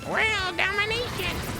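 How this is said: It is said in a put-on cartoon character voice.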